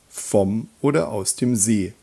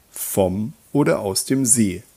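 The two takes are said the same way.

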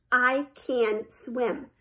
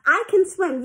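First: Very slow, measured statement; proud declaration. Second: Higher, indignant insistence; insistent. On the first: Sheila summing up her victory, slow and proud. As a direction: give each word its own weight. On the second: Girl defending herself to her swim coach, insistent. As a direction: protest it firmly, pitch lifted. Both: A narrator's reading.

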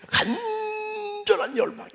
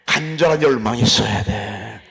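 First: Much higher, slow and drawn out; soaring high. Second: Said in the usual way. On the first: Shown as a demonstration. Preacher stirring congregation, high and drawn out. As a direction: lift the phrase way up, stretched.

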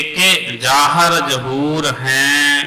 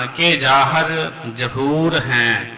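First: ਕਿ ਜਾਹਰ ਜਹੂਰ ਹੈ with a pause after ਕਿ, each word separate; correct phrasing. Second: ਕਿ ਜਾਹਰ ਜਹੂਰ ਹੈ with words joined across the wrong break; wrong phrasing. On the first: Teacher showing students the right way to phrase ਕਿ ਜਾਹਰ ਜਹੂਰ ਹੈ. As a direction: pause on ਕਿ, then ਜਾਹਰ and ਜਹੂਰ kept apart. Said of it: "ਕੇ ਤੇ ਰੁਕ ਕੇ". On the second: Teacher demonstrating the wrong way to read ਕਿ ਜਾਹਰ ਜਹੂਰ ਹੈ. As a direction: run ਜਾਹਰ into ਜਹੂਰ, falling at the end. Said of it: "ਇਸ ਤਰ੍ਹਾਂ ਨਹੀਂ ਪੜ੍ਹਨਾ।". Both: Shown as a demonstration.

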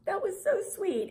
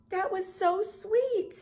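First: High gushing mock reaction; a high, gushing reply to a sweet comment. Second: High, slow, gushing coo; high slow coo over another sweet comment. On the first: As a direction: coo it like you're touched. Quoting her reaction to comments. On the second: Retold or imitated. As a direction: stretch it out, melting. Quoting her reaction again.

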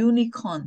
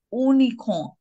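First: "unicorn" starting with Y, like "you-nicorn"; correct pronunciation. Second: "unicorn" with no Y, like "oonicorn"; wrong pronunciation. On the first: Teacher giving the correct pronunciation, yoo at the start. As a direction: begin "unicorn" on a clear "yoo". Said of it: "the correct pronunciation is unicorn". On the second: Teacher showing what happens if mispronounced as oonicorn. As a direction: start "unicorn" with a bare "oo". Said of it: "If we pronounce". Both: Shown as a demonstration.

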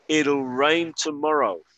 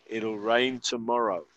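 First: Slow clear model. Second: Said in the usual way. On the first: Shown as a demonstration. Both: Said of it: "escuchar la pronunciación".

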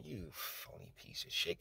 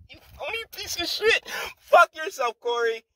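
First: Much softer, whispered contempt; whispered insult. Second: Much higher squealed insult, mocking. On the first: Acted. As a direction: hiss it under the breath. Closing insult after rant. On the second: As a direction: spit it out in a jeering falsetto. Mocking outburst at Cory.

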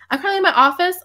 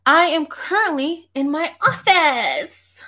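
First: Said in the usual way. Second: Slow, high, drawn-out mock-grand answer; hammed-up announcement. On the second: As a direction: stretch it out theatrically, pitched high. Hammed-up answer, then repeated normally.

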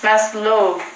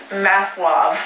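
First: Maslov with a rounded "oh" in the second syllable; Maslov, ending in a long "lohv"; alternative pronunciation. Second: Maslov with an open California "ah" in the second syllable; Maslov, California-style, as "MASS-lahv"; California accent. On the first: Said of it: "is it Maslov or is it". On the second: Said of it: "in a really California accent". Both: Shown as a demonstration.

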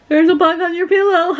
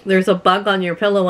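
First: High sing-out breaking into a mock laugh; high, gleeful imitation, laughing; imitating teasing laughter. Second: Said in the usual way. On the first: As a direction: mimic someone laughing as he says it. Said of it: "He's laughing at me". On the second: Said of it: "He's like".

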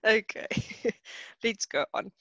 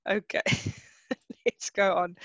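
First: Trying to move on while laughing. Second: Laughter again breaks into the words; second try at moving on, still giggling; still laughing. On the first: Teacher to class, laughing as she tries to continue. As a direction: giggles breaking into okay. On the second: Teacher to class, still laughing as she tries to continue. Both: Real, not acted. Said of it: "I'm laughing so much now".

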